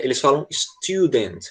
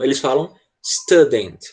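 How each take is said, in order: First: Student with a U sound, student; British student. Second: Student with an A sound, stɐdent; American student. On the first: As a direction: say student with a clear U, British style. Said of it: "se você gosta de inglês da Inglaterra". (student com som de U, britânico) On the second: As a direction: say student like stadent, American style. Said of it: "se você gosta de inglês americano". (student com som de A, americano) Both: Shown as a demonstration.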